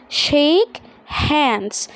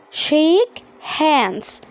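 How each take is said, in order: Both takes have the same delivery.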